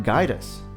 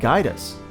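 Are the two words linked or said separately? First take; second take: linked; linked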